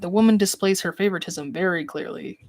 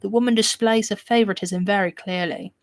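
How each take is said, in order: First: It is read in a normal, unaffected accent. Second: It is read in a put-on British accent.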